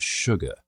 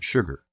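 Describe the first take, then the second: First: "sugar" with no final R, ending "-uh"; Southern dropped R on "sugar"; non-rhotic Southern. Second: "sugar" with a pronounced final R; Southern sounded R on "sugar"; rhotic Southern. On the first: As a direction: say "sugar" as "shug-uh". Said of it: "where there's no R sound". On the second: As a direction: say "sugar" ending in a firm "-er". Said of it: "rhotic Southern accents where there is an R sound". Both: Shown as a demonstration.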